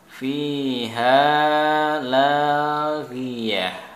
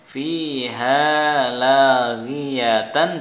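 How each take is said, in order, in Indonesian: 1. Kata terakhir berakhir dengan bunyi h yang berdesah. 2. Kata terakhir berakhir dengan suku kata tan.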